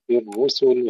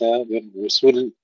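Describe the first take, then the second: First: بالرسل with a short su, single final lam; unpushed sin. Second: بالرسل with su shoved into a doubled final l; pushed sin, wrong. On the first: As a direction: keep the س of بالرسل light into a simple ل. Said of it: "لا ندفع السين". (بالرسل دون دفع السين) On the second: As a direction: punch the س and tighten the ل in بالرسل. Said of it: "وليس". (بالرسل بتشديد اللام خطأً) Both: Shown as a demonstration.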